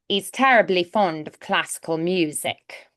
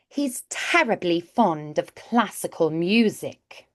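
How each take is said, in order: First: The first word starts without an H sound. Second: The first word starts with an H sound. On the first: "you will hear e's instead without that H there" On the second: "let's try with the H now"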